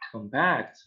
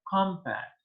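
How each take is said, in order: First: The stress is on the second syllable. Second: The stress is on the first syllable. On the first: It is used as a verb. "So I make the stress in the verb in the second one" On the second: It is used as a noun. "as a noun, we make the, the stress on the first one"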